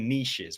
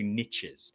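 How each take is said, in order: First: The word is said the British way. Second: The word is said the non-British way. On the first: "I'm British and we don't say we say niches" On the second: "we don't say niches"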